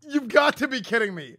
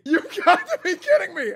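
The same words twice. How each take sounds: First: Said in the usual way. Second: High, loud, laughing in disbelief. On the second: Real, not acted. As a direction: crack up in total disbelief. Disbelief at meme winner.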